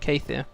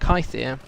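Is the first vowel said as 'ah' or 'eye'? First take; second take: ah; eye. First: The first vowel is said like 'ah'. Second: The first vowel is said like 'eye'. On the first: The speaker calls it wrong. "not Kathir" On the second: The speaker calls it right. "should be called Kythir"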